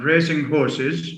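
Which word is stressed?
horses. The stress falls on the second word. They are horses that are racing. "A is an adjective plus noun"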